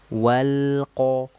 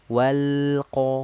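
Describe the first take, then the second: No difference in how they are said.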